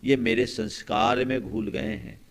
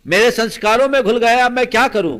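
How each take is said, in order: First: Said in the usual way. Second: Loud, high-pitched imitation of desperation; retold helpless outcry. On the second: Man confessing to monk he cannot change, loud despairing outburst. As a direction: cry it out as the man at his wits' end.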